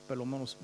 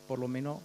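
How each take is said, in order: Both takes have the same delivery.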